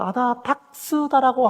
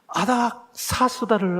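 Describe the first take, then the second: First: The syllables run a-da-dak-seu-da. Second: The syllables run a-dak-sa-seu-da. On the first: The speaker calls it wrong. "계속 결정적인 실수를 해요" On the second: The speaker calls it right. "아닥사스다 몇 년이라고 성경에 되어 있는데"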